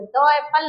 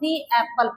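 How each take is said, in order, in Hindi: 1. 'The' में छोटी 'uh' स्वर ध्वनि होती है। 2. 'The' में लंबी 'ee' स्वर ध्वनि होती है। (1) "नहीं पढ़ेंगे" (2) "तो फिर अगेन इसको हम दी एप्पल पढ़ेंगे"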